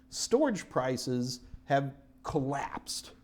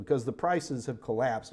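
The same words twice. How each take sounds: First: "storage prices have collapsed" spoken slowly, each word weighted; slow emphasis. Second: Said in the usual way. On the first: Shown as a demonstration. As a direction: lean on "storage" and draw the phrase out. Teacher repeats key point.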